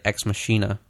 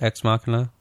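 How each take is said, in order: First: The ch is said as an sh sound. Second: The ch is said as a k sound. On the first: "some people say like Ex Machina" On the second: "which I think is correct"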